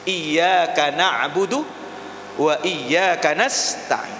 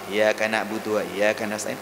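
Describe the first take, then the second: First: The y sound in iyyaka is held doubled. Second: The y sound in iyyaka is short, single. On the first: It is to God that we worship and ask. The speaker calls it right. "Kalau iyyaka pakai tasdid, ... benar itu" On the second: It is to the sun that we worship and ask. The speaker calls it wrong. "kalau baca iyyaka tanpa tasdid"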